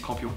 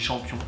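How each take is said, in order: First: The word begins with a hard k sound. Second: The word begins with a soft sh sound. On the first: This is how others say the name. "ils disent campion" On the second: This is how the speaker says the name. "moi je dis champion"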